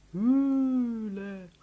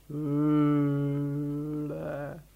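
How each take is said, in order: First: Lang gezogenes, hohles Brummen. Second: Sehr lang gezogenes, monotones Brummen; tiefes Elefantenbrummen. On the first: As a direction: das Wort wie in einer Höhle brummen. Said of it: "brummte Paul mit tiefer Stimme". (gedehnt gebrummt) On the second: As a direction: das Wort tief und endlos brummen. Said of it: "der blaue Elefant brummte auch". (brummender Elefant) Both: A narrator's reading.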